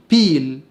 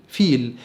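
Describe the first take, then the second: First: بيل said as piil, with a p; popped p in بيل; voiceless p. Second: فيل said as fiil; f sound. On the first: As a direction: start بيل on an English p. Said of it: "البي المهموسة". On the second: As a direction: start فيل on f, not p. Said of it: "يعني فيل". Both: Shown as a demonstration.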